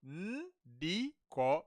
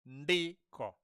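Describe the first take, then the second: First: The syllables are said apart with a break. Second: The syllables are joined into one smooth word.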